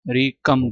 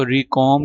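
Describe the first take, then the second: First: रिकम with a short "kum" in the second syllable; corrected रिकम. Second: रिकॉम with a long open "om" in the second syllable; mispronounced रिकॉम. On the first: Teacher correcting the reading for students, short-vowel रिकम. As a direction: say रिकम, ending like English "come". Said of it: "रिकम पढ़ना है". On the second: Teacher showing students what not to say, mispronounced रिकॉम. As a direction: say रिकॉम, rhyming the end with "calm" or "Tom". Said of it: "इसको रिकॉम नहीं पढ़ना". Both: Shown as a demonstration.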